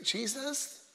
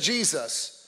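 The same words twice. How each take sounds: First: It is said weakly and timidly. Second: It is called out loudly and strongly.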